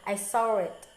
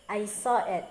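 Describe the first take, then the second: First: Said with an added r sound after saw. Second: Said with no r sound after saw. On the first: "but in a New Yorker way" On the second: "normal uh, English way"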